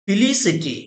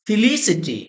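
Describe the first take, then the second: Both takes have the same delivery.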